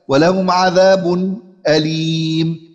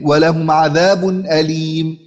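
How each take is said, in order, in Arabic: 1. يأتي قبل الهمزة سكت خفيف قصير. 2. تُنطق الهمزة قبل 'alim' كاملة. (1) "والوجه الثالث وهو السكت" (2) "والوجه الثاني وهو التحقيق"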